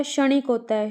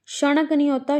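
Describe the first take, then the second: First: "क्षणिक" with an i, "sha-nik"; correct pronunciation. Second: "क्षणिक" with uh in the last syllable, "sha-nak"; wrong pronunciation. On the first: Teacher correcting students, "क्षणिक" said clearly as "sha-nik". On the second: Teacher showing students the mistake, "क्षणिक" said as "sha-nak". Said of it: "क्षणिक नहीं होता". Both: Shown as a demonstration.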